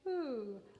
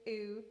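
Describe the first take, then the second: First: The vowel starts with a soft breathy h. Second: The vowel starts with a hard glottal attack. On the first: The speaker calls it right. "we're going to say ooh" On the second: The speaker calls it wrong. "we're not going to say oo"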